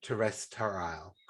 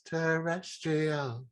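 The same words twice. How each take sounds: First: Terrestrial drawn out slowly, syllable by syllable; sounding out words. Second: Terrestrial stretched very slowly, higher; sounding out words. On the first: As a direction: spell out terrestrial in slow beats. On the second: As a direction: drag out every syllable of Terrestrial. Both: Shown as a demonstration. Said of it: "you have to really sound out the syllables".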